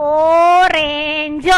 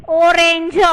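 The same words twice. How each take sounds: First: ઓરેન્જ stretched very slowly, leaning on the opening ઓ; drawn-out word. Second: Said in the usual way. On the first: Shown as a demonstration. Teacher stretches ઓરેન્જ to show students it starts with ઓ, slow and deliberate. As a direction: slowly draw out ઓરેન્જ so the first vowel ઓ stands out. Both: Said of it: "ઉચ્ચાર ક્યાંથી થયો?".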